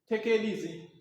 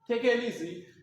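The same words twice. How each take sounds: Both takes have the same delivery.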